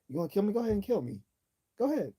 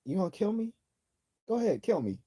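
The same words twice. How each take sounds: First: Higher, taunting dare, pushing harder each time; goading the assassin, voice climbing higher; young Fidel Castro, daring. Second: 1950s Fidel Castro. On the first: Man baiting his would-be assassin, higher taunting dare. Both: Retold or imitated. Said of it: "imagine that in a Cuban accent".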